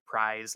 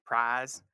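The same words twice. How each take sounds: First: "prize" with the full glide from ah to ee; mainstream US prize. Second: "prize" said as "prahz", the vowel flattened to a single long ah; Southern "prize" with no glide, "prahz". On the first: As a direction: standard American "prize", the diphthong clearly gliding. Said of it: "what we would say in a more mainstream U S accent". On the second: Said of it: "the Southern accent is gonna say something like". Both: Shown as a demonstration.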